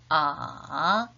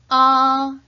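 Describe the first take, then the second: First: The pitch dips low, then rises slightly. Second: The pitch stays high and level. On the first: "삼성은 낮은 음에서 더 낮은 음으로 내려갔다가 살짝 올라가죠" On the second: "일성은 높고 평평하게"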